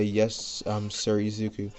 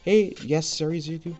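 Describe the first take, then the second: First: It is said in a plain, normal voice. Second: It is said in a put-on character voice.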